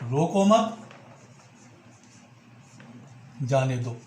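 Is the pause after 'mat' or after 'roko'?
after mat. There is a pause right after 'mat'. Do not stop the person; let them go. "रोको मत, उसे रोकिए मत, जाने दीजिए"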